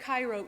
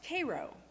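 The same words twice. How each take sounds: First: It is said like the Egyptian city's name. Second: It is said like the syrup name Karo. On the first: This is how outsiders say the town's name. The speaker calls it wrong. "spelled like Cairo, Egypt" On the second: This is how local people say the town's name. The speaker calls it right. "but pronounced Cairo. ... Cairo like the syrup"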